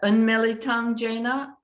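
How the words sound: It is said with a French-sounding pronunciation. The speaker calls it wrong. "I pronounce it like the only language I ever learned besides English is French"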